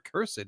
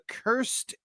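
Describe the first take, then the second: First: The word is said as two syllables. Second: The word is said as one syllable.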